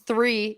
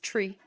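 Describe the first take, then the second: First: It begins with a TH sound. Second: It begins with a plain T sound.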